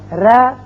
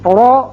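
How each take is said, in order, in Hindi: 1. R पतला और हल्का बोला जाता है। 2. R भारी और भरा हुआ बोला जाता है। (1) "ये बारीक आवाज है" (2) "ये पुर आवाज है"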